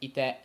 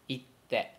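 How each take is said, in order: First: "ite" said straight through; no pause before te; plain ite. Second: "itte" with a glottal stop before te; with small tsu. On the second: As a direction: catch the air before te. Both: Shown as a demonstration. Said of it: "so the difference is".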